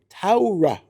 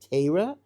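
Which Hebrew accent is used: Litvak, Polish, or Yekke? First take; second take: Yekke; Litvak. First: The first vowel is said as an au sound. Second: The word is said in a Lithuanian Jewish accent. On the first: "A U, like that's the yucky pronunciation" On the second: "That's what a, lit, a true Litvak would say"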